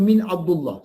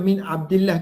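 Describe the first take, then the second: First: The vowel after 'Abd' is a 'u'. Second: The vowel after 'Abd' is an 'i'. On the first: The name is kept as it was originally given. "Tapi kita baca min Abdullah" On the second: It follows the normal case ending after 'min'. "Sepatutnya baca min Abdillah"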